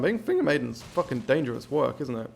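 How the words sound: It is said in an odd, unsteady voice.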